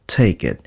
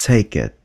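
Both takes have the same delivery.

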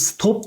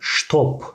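First: The word begins with a plain s sound. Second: The word begins with an sh sound. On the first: This is the Turkish way of saying it. "biz stop diyoruz" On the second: This is the German way of saying it. "Almanca stop, stop şeklinde okunacak"

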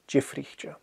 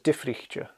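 First: The word begins with a J sound. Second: The word begins with a strong D sound. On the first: "You'd probably hear Jifrichcha more often" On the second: "I've heard it pronounced as Difrichcha, a strong D"

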